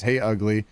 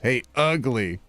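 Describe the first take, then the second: First: It is said plainly, without extra emphasis. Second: It is said with strong, heavy emphasis.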